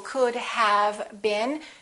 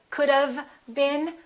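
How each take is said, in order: First: Have is said fully with its H. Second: Have is reduced to sound like of.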